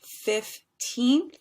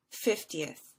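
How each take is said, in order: First: "Fifteenth" with second syllable high, loud and stretched; long stressed TEENTH. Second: "fiftieth" stressed on FIF, short falling "ti-eth"; short-ending fiftieth. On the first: Teacher drilling the difference, "Fifteenth" with long rising teenth. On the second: Teacher drilling the difference, "fiftieth" falling with short ending. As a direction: stress the first syllable of "fiftieth", drop the rest. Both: Shown as a demonstration. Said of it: "a little bit longer".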